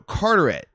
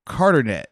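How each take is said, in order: First: Carteret said correctly as Car-ter-et; fixing the name, saying Carteret properly; corrected place name. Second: Carternet said with an extra n, as Car-ter-net; stumbling over the name, saying Carternet; mispronounced place name. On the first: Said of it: "no, Carteret". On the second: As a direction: Carternet mangled like an unfamiliar town name. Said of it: "I was butchering the heck out of that". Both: Real, not acted.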